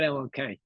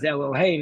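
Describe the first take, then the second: First: The middle consonant is a K sound. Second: The middle consonant is an H sound. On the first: It refers to God. The speaker calls it wrong. "not Eloke" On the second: It refers to idols, not God. The speaker calls it right. "you read it as Elohe"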